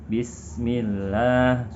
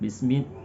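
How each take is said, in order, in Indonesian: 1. Dibaca dengan tempo sedang. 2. Dibaca cepat dengan s yang lebih pendek. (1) "Kalau bacanya sedang" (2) "apabila kita baca lebih cepat, maka akan terkesan lebih pendek"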